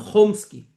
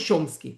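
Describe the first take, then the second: First: It starts with a throaty kh sound. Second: It starts with a ch sound. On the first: This is how people in Israel say it. "aqui em hebraico as pessoas se referem a ele como Noam Chomsky" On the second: This is not how people in Israel say it. "não Chomsky"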